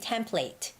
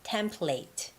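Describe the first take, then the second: First: It is said with a British accent. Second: It is said with a British accent.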